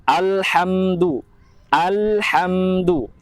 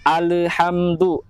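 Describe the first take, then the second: First: Alhamdu with a still, unbounced lam; correct steady lam. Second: Alhamdu with the lam bounced; wrong bouncing lam. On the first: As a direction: hold the lam in alhamdu firm. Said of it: "lam itu tidak memiliki sifat dari memantul". (contoh benar, lam tidak memantul) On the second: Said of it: "lam itu dibaca mantul". (contoh salah, lam memantul) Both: Shown as a demonstration.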